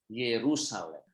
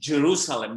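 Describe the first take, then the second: First: The word begins with a Y sound. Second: The word begins with a J sound. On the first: The speaker calls it right. "It's supposed to be like this" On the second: The speaker calls it wrong. "the Western pronounce it Jerusalem"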